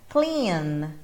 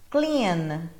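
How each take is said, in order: The two takes are said the same way.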